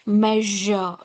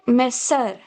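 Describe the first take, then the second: First: The middle consonant is a buzzing zh sound. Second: The middle consonant is a hissing s sound. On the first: The speaker calls it right. "It is measure. Ja" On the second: The speaker calls it wrong. "It's not sa sound"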